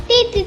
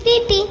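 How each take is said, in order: The two takes are said the same way.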